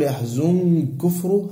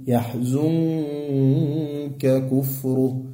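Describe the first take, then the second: First: "يحزن كفره" with the nun swallowed into the kaf, run together as one heavy sound; "يحزن كفره" squashed together as the wrong example; merged nun wrong way. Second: "يحزنك كفره" said very slowly, the nun of "يحزنك" hidden and kept apart from the kaf; slow the word "يحزنك" so its nun stays distinct; "يحزنك" with a clear hidden nun, not merged; clear nun before kaf. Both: Shown as a demonstration. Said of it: "تيجي تقول".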